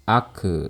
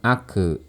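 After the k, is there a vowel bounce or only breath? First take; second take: bounce; bounce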